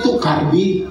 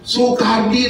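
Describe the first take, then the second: First: The name begins with a T sound. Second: The name begins with an S sound.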